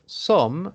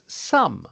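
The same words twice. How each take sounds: First: The vowel sounds like the letter O. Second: The vowel sounds like an 'uh' sound. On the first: The speaker calls it wrong. "instead of some" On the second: The speaker calls it right. "the letter O is pronounced like a U"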